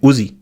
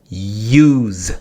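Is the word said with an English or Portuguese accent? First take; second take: Portuguese; English. First: The word has a Portuguese-influenced pronunciation. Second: The word has a native English pronunciation. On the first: The speaker calls it wrong. "Sometimes in Portuguese say use" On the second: The speaker calls it right. "It's not use"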